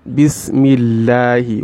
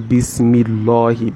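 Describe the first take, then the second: First: The L sound is thin and light. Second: The L sound is thick and heavy. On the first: The speaker calls it right. "You pronounce it with tarqiq" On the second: The speaker calls it wrong. "that law on there is what is the tafkhim kind of pronunciation"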